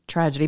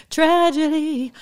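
First: Said in the usual way. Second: High, slow sung-out tragedy; mock dramatic. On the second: Mock-dramatic Tragedy sung to viewers. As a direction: stretch Tragedy up high like a lament.

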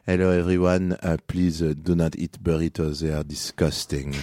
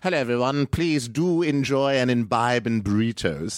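First: Put-on French voice; French accent. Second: High-pitched put-on British voice; British accent. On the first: Comedian does French on the host's request, French accent. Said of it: "French again?". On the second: Comedian does British on the host's request, British accent. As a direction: do a polite, high British greeting. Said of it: "Now, British". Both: Shown as a demonstration.

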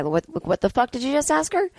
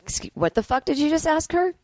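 First: Menacing handler voice; gonna rough you up guy. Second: Higher, confrontational handler snapping at a rude asker; mock tough handler. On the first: Pretend. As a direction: play a tough guy ready to rough someone up. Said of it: "the gonna rough you up guy". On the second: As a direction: act like a protective handler. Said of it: "And they could just be like".

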